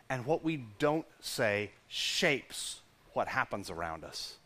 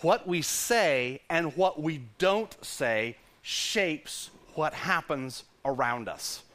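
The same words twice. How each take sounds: First: Slow, soft, weighty phrase; slow hushed emphasis; emphatic. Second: Slow, deliberate "What we say and what we don't say"; slow emphatic repetition. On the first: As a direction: press each word of "what we don't say". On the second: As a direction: land every word slowly. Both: Shown as a demonstration. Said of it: "I'll say that again".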